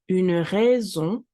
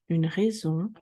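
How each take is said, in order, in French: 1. Elle est dite lentement et avec soin. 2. Elle est dite à une vitesse de conversation normale.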